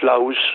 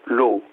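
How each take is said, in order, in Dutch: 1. De laatste s-klank wordt uitgesproken. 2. De laatste s-klank is stil. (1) "Niet Laus" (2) "maar Lo"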